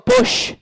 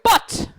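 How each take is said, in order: First: The final t sounds like a soft sh. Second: The final t is a crisp stop. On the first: "the Irish go bush. It sounds like we're saying S H instead of T" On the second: "The British go but"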